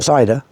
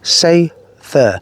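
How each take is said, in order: First: It sounds like the English word cider. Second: It sounds like say-ther, with a th sound. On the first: The speaker calls it wrong. "not cider, most people really do pronounce it cider actually" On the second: The speaker calls it right. "that's the way you pronounce it"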